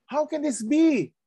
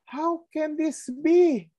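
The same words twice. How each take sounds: First: High puzzled question in character; high, bewildered voice of a questioning Pharisee; voicing Nicodemus. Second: High, slow, incredulous question; a high, slow, stunned Nicodemus; voicing Nicodemus. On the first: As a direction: ask it as the baffled Nicodemus. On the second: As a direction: draw it out like a baffled scholar. Nicodemus quoted again, slower.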